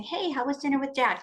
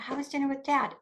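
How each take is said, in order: First: Bright, higher sing-song greeting; forced niceness. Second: Higher, sugary, careful question; be nice through gritted feelings; forced nice. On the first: Mother greeting her child at the door, overly nice. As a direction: put on a cheery, too-nice voice. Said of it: "instead of them coming in the door and saying". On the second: Triggered mother asking daughter about dinner, forced nice. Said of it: "oh, I'm gonna be nice". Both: Retold or imitated.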